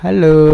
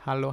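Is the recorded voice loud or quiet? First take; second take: loud; quiet. First: The voice is recorded at the highest level. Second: The voice is recorded at a low level. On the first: "Ini volume maksimal dari Sades mikrofon Sades Orpheus" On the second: "ini suara volume dari kecil ya. Ini gue naikin kecil, eh naikin pelan-pelan"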